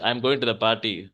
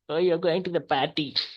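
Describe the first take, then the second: First: It is said in a plain, neutral tone. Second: It is said in a teasing, mocking tone.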